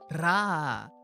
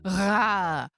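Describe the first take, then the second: First: The r sound is made at the front. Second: The r sound is made at the back. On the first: "the ra sound" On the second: "the same, but like in the back of the mouth"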